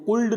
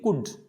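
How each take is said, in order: First: The l is sounded. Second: The l is silent. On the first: The speaker calls it wrong. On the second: The speaker calls it right.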